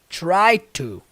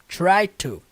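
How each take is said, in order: Both takes have the same delivery.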